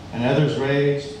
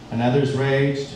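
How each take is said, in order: Both takes have the same delivery.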